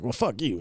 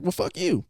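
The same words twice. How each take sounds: First: Quiet, mock-defiant comeback; retold bickering retort. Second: Higher, softer mock comeback; retold bickering echo. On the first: She snaps at O J on arrival, mock-defiant retort. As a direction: toss back a softened mock insult. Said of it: "And she's all like". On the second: He fires the insult back at her, higher mock retort. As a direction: echo the insult in a lifted, mocking voice. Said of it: "He's like".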